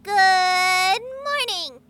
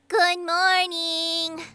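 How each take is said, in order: First: It is said warmly, with feeling. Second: It is said flatly, without warmth.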